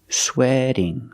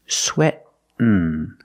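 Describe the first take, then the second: First: The T is a quick D-like flap. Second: The T is stopped, falling into N. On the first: "the T changes to a fast D" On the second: "you make a stop T, sweat, and then you fall to the N"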